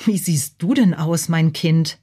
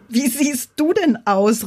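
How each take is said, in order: First: Mildly taken-aback mother's question; understated bewilderment at a child's looks; disconcerted. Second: Slow, high, amused ghost's exclamation; hammed-up amused ghost voice; laughing call. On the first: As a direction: ask in restrained puzzlement, pitch kept level. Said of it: "musterte Bacilla befremdet". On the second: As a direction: call out in drawn-out mockery, pitch raised. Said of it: "rief das Gespenst und lachte". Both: A narrator's reading.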